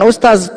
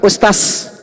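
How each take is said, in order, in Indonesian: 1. Konsonan terakhir adalah bunyi z. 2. Konsonan terakhir adalah bunyi s. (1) "bukan ustaz" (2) "Lebih cenderung ke sa"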